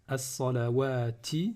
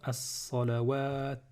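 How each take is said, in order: First: The word ends with a final vowel sound. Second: The word ends on a consonant, no final vowel. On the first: The reciter keeps going without stopping. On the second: The reciter stops on this word.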